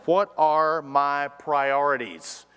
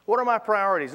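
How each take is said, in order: First: "What" drawn out, slow and weighty; slow, deliberate "What are my priorities"; slow stress on What. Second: "my" lifted higher and hit hard; stress on my. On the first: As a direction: lean on "What", taking it slowly. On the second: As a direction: punch "my", higher pitch. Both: Shown as a demonstration. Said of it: "let us ask ourselves this first question".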